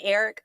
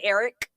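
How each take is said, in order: First: The final K sound is soft and unstressed. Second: The final K sound is strongly emphasized. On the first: "I don't say his name Eric" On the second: "You got to stress that K"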